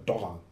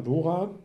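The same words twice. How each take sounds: First: "Dora" with a short o, like Dorra. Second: "Dora" with a long, drawn-out o. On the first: Correcting the designer's surname, short-o Dora. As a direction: say "Dora" with a quick first vowel, falling. Alternative Aussprache nach "oder. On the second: Offering listeners the designer's surname, long-o Dora. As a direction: say "Dora" as DOH-ra, stretching the first vowel. Zwei Aussprachen des Nachnamens. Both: Shown as a demonstration.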